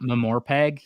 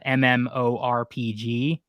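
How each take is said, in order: First: It is said as one blended word. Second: It is spelled out letter by letter. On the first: The speaker calls it wrong. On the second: The speaker calls it right.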